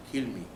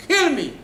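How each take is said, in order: First: Said in the usual way. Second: Very high, loud outburst; exasperated outburst. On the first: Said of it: "Moshe said to Hashem". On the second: Acted. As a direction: cry it out loudly, fed up with God. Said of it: "You can't tell Hashem like this".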